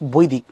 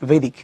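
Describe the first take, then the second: First: It is said with a Bengali pronunciation, like 'boidik'. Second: It is said with an English pronunciation, like 'vedic'. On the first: "তা তোমার আগে বৈদিক" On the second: "ইংলিশে বললে হয়"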